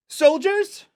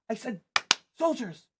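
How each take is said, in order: First: Put-on loud, very high child's call; high-pitched shout, rising at the end; expectant summons. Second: Put-on high, bossy child's order, falling at the end; impatient little commander; insistent repeat. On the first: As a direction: call the troops and expect an answer. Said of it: "looks over her shoulder expectantly". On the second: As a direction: repeat the summons pointedly, pitched way up. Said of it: "when no one does, she turns and goes".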